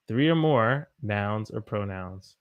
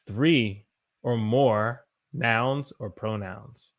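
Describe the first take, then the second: First: Said in the usual way. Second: Three or more nouns or pronouns, slow and spaced; slow teaching emphasis. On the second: Shown as a demonstration. Teacher spelling out the rule to learners slowly.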